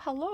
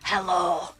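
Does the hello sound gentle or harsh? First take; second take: gentle; harsh. First: The greeting is said softly and gently. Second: The greeting is said harshly and abrasively. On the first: "It's not like" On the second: "very scary Scottish accent... it's quite abrasive"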